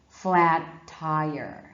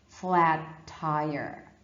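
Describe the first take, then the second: No difference in how they are said.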